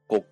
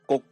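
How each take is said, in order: First: The syllable is clipped at mid pitch. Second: The syllable is clipped at high pitch. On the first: "真ん中ぐらいの高さで詰まる音である第4 声" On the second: "高い位置で詰まる音を第8 声に転調します"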